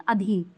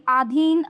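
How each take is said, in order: First: अधीन with a short opening "a"; lower, falling अधीन, first vowel short; अधीन said as "adheen"; correct pronunciation. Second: अधीन with a long opening "aa"; अधीन said as "aadheen"; wrong pronunciation. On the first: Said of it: "ये सही है". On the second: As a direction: stretch the first vowel of अधीन. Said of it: "ये भी गलत है, ये सही है". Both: Shown as a demonstration.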